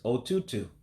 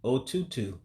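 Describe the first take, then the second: The two takes are said the same way.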